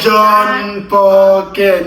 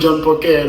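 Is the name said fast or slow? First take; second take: slow; fast. First: The name is said slowly, as two separate words. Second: The name is said fast, run together as one. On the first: The speaker calls it wrong. "not like" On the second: The speaker calls it right. "Like fast"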